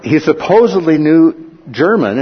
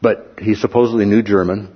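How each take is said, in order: First: Supposedly leaned on, higher and louder; stress on supposedly. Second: Said in the usual way. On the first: Shown as a demonstration. The preacher doubting his teacher's German, leaning on supposedly.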